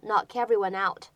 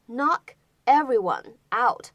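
First: The words are linked smoothly into one. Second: The words are said separately without linking.

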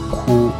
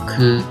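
First: The vowel is said with protruding, rounded lips. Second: The vowel is said with flat, unrounded lips. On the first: The speaker calls it wrong. "不要发成哭。嘴唇太突出了，就不是日语的发音了。" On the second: The speaker calls it right. "注意其中的元音是u，比较瘪"

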